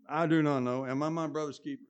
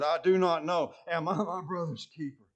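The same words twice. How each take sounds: First: Contemptuous, smart-alecky retort with a punch on "do"; smarmy smart mouth. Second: Louder, defiant retort with "do" and "I" hit hard; contemptuous answer. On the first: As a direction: toss it back like a cheeky brush-off. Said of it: "Some smarmy, smart mouth". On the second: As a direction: throw the question back at God in scorn. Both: Retold or imitated.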